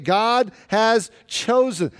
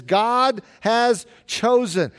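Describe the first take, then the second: First: Slow, with weight on "chosen"; stress on chosen. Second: "God" hit hardest, slow and falling; stress on God. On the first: Preacher quoting verse twenty-eight, slow stress on "chosen". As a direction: draw out "God has chosen", landing on "chosen". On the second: Preacher quoting verse twenty-seven, stress on "God". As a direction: lean on "God" in "God has chosen", slowly. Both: Shown as a demonstration. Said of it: "The emphasis is on what God does".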